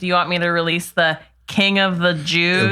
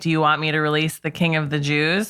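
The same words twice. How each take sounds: First: It is asked with a mocking, scare-quote tone. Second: It is asked as a plain, sincere question. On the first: The speaker calls it right. "I feel like it would be more like" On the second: The speaker calls it wrong. "the inflection you're giving the Pilate"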